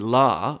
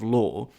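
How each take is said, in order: First: It has an unrounded North American vowel. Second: It has a rounded British-style vowel.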